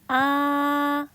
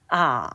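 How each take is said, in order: First: The pitch stays high and level throughout. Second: The pitch dips low, then rises again. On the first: "솔음 높은 음이 쭉 연달아서 높은 음이 평범하게 발음하는 거죠" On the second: "낮은 음에서 가장 낮은 음으로 더 내려갔다가 사까지 올라가요"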